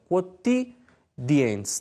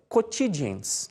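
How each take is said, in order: First: It is said in Italian-style church Latin pronunciation. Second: It is said in Brazilian Portuguese-style Latin pronunciation. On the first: "Na pronúncia eclesiástica" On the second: "na pronúncia regional"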